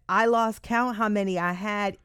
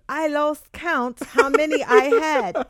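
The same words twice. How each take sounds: First: It is read in a plain, unaffected accent. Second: It is read in a put-on British accent.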